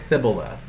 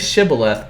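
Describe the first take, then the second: First: The word begins with a lisped th sound. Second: The word begins with a clear sh sound. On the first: The speaker calls it wrong. "They can't say it right" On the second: The speaker calls it right. "Say Shibboleth"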